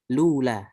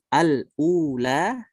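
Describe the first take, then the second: First: It starts directly on l, with no opening vowel. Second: A glottal stop separates the article from ula. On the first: "dengan lula" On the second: "seperti Hafs"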